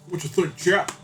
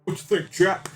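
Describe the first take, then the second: No difference in how they are said.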